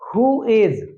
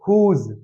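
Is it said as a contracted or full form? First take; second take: full; contracted. First: It is said as two full words. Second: It is said as one contracted syllable.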